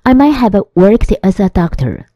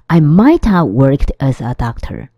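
First: Might have is said as two full words. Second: Might have is squeezed into one word, mighta.

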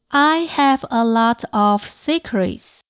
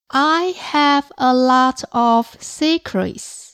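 The two takes are said the same way.

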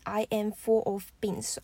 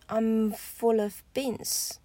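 First: It starts with the full form I am. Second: It starts with the contracted form I'm. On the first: The speaker calls it wrong. "不要念I am full of beans 哦" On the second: The speaker calls it right. "So I'm full of beans"

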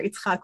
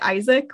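First: The name is said as Hebrew Yitzhak. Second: The name is said as English Isaac. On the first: "which is like the Hebrew pronunciation" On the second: "which is the English like pronunciation"

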